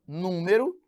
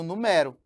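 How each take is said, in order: First: "número" with the first syllable stressed, NÚ-me-ro. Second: "numero" with the middle syllable stressed, nu-MÉ-ro. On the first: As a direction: punch NÚ in "número". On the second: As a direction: punch the open MÉ in "numero". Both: Shown as a demonstration. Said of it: "que é diferente de".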